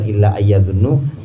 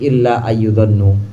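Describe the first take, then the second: First: The vowel after 'ayy' is 'a'. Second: The vowel after 'ayy' is 'u'. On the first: The speaker calls it wrong. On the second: The speaker calls it right.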